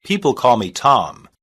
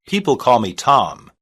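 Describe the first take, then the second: No difference in how they are said.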